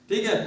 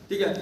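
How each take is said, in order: The two takes are said the same way.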